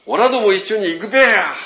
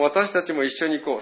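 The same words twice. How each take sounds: First: Loud, high rustic Tohoku call; Tohoku dialect. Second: Said in the usual way. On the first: Retold or imitated. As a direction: belt out オラども一緒に行くべや in thick Tohoku dialect. (東北弁で大声で呼びかける) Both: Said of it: "そんな綺麗な言葉で言ってなかった".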